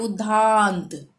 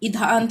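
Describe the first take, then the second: First: The vowel is stretched out very long. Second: The vowel has its normal short length. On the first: The speaker calls it wrong. "बहुत ज्यादा खींच के" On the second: The speaker calls it right. "हम बोलते हैं इधांत"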